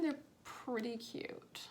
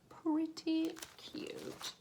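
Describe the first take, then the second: First: Said in the usual way. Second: Whispering. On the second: Shown as a demonstration. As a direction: breathe it in a whisper. Whispered repeat of phrase.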